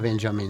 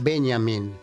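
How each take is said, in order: First: The J sounds like an English j. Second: The J sounds like a y. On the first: It makes the name sound American. The speaker calls it wrong. "no digas Benjamin" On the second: It keeps the name German. The speaker calls it right. "En alemán la J se pronuncia I"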